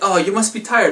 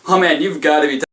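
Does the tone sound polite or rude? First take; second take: polite; rude. First: It sounds polite and sympathetic. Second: It sounds rude and judgmental.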